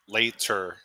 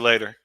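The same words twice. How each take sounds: First: The middle consonant is a crisp T sound. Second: The middle consonant is a soft D sound. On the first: "it takes like like three milliseconds to get, to get that T out" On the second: "I'll use a D for saying later"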